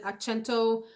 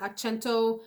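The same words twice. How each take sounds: First: The name is said with Italian sounds. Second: The name is said with Italian sounds.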